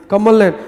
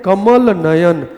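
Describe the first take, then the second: First: Said in the usual way. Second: कमल नयन very slowly and deliberately; slow, drawn out. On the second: Shown as a demonstration. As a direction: spell out कमल नयन for the class. (कमल नयन धीरे-धीरे, खींचकर) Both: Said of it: "क्या बोल सकते हैं?".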